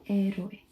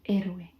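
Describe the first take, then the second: Both takes have the same delivery.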